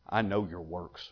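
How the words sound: It sounds stern and scolding, like a rebuke. The failings have been noticed and are rebuked. The speaker calls it right. "Read that in a slightly different voice"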